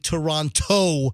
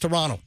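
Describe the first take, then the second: First: The final T sound is clearly pronounced. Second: The final T sound is dropped. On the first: The speaker calls it wrong. "You're not supposed to say Toronto like I stubbed my toe" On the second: The speaker calls it right. "you don't pronounce the T in Toronto, the ending T"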